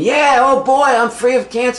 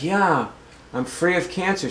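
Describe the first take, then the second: First: It is said with excited enthusiasm. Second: It is said calmly and flatly.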